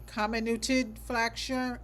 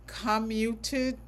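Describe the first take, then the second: First: "comminuted" said slowly as KOM-uh-noo-tid, settled; a slow, careful retry of "comminuted"; corrected pronunciation. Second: "comminuted" said slowly and unsure as KOM-yoo-tid, rising; sounding out "comminuted" haltingly, unsure; a slow, unsure first try at "comminuted"; stumbling pronunciation. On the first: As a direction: carefully land "comminuted" on the second try. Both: Real, not acted. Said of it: "I can't say it".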